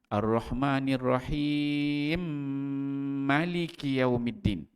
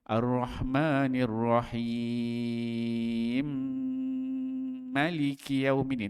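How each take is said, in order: First: The vowel in Rahim is held briefly. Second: The vowel in Rahim is held moderately long.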